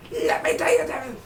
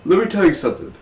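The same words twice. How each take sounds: First: Extremely high, squeaky put-on voice; mock squeak. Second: High-pitched opening, falling away; raised voice. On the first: Reviewer about to vent over Laurel's death, tiny squeak. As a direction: squeak it out as if overcome. Same words repeated in squeak. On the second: Pretend. Reviewer about to vent over Laurel's death, raised voice. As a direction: start high on a mock declaration. Same words repeated, far higher second.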